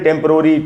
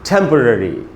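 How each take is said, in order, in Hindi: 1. तीसरे अक्षर में clear o स्वर है। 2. तीसरे अक्षर में weak schwa स्वर है। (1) "हम लोग इसको बोलते हैं टेम्परोरी" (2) "ठे में जो ए है उसी पर स्ट्रेस है... इसको हम पढ़ेंगे टेम्पररी"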